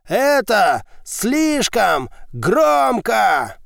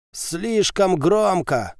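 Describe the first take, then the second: First: Slow, high, drawn-out roar. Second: Slow, raspy complaint; hoarse wheeze. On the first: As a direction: bellow it out breathlessly. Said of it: "взревел". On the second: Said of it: "прохрипел Назар". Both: A narrator's reading.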